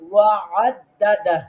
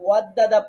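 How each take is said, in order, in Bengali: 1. 'dada'-র আগের গলার বর্ণটি স্পষ্ট করে উচ্চারণ করা হয়। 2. গলার বর্ণটি বাদ পড়ে, শব্দ দুটো একসাথে জুড়ে যায়। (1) "আইনটা গলার মাঝখানে যাবে" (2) "আইন বাদ দিছেন"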